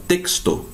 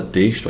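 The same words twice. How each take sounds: First: "texto" with a clear K-S. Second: "texto" with an SH sound for X; Portuguese X. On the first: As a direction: say "texto" as "teksto", ending in O. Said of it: "o X tem som de K S". ("texto" com X soando KS, à espanhola) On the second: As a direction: say "texto" as "teshtu". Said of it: "A gente não fala texto". ("texto" com X chiado, em português) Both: Shown as a demonstration.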